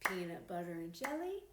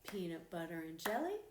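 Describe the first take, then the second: No difference in how they are said.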